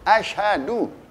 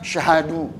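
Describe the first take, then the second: First: The word starts with an 'a' vowel sound. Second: The word starts directly with the 'sy' sound. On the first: The speaker calls it right. "Alifnya mesti ada tuh" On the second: The speaker calls it wrong. "Nggak ada alif"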